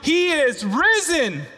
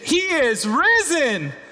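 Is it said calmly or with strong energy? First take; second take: calmly; strong energy. First: It is said calmly, with less force. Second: It is said with strong energy and force.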